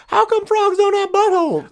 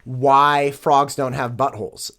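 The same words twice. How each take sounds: First: Put-on little girl's high Southern twang; squeaky-high mock Southern kid voice; Southern accent. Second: Said in the usual way. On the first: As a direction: imitate a Southern five-year-old, pitched way up and loud. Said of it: "she's got this unbelievable Southern accent". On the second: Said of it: "very innocently asking her grandmother".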